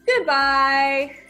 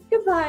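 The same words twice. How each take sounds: First: It is said in a happy voice. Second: It is said in a sad voice.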